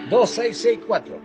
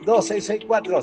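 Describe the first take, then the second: First: The number is said slowly. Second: The number is said fast.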